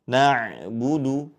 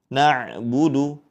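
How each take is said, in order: The two takes are said the same way.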